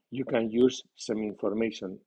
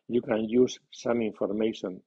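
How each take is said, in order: First: "some" reduced to "sm", stress on "use", slow; weak some. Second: "some" stressed with a full vowel, slow; medium stress on some. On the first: Teacher showing a student the weak article "some". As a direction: glide over "some", lean on "use". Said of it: "Some con acento débil". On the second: Teacher showing a student "some" meaning only some. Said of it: "Some con acento medio". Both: Shown as a demonstration.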